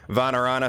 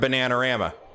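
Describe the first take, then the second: First: The name begins with a V sound. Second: The name begins with a B sound.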